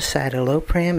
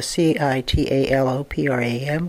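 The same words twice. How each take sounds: First: Said in the usual way. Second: Citalopram spelled letter by letter, C I T A L O P R A M. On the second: Shown as a demonstration. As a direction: dictate citalopram one letter at a time.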